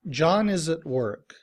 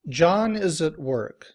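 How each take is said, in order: No difference in how they are said.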